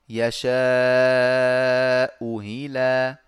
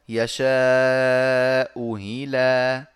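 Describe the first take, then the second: First: The second hamza is softened toward a y sound. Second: The second hamza is softened toward a y sound.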